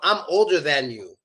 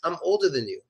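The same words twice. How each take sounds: First: The word 'than' has a full, clear vowel. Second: The word 'than' has a reduced schwa vowel. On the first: The speaker calls it wrong. "no one says" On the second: The speaker calls it right. "It's just"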